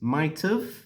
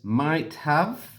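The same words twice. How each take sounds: First: The words are joined with a short 've' ending. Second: Both words are said fully and separately.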